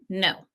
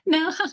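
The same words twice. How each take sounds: First: It is said flatly, without giggling. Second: It is said with a giggle, unsure.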